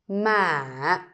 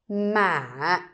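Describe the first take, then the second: First: The pitch rises slightly, then falls. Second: The same.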